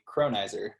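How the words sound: The name has an American English pronunciation. "here in the States we would say"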